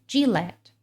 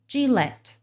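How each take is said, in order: Both takes have the same delivery.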